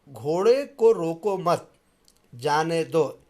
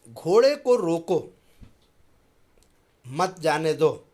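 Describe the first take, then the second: First: The pause comes after मत. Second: The pause comes after रोको.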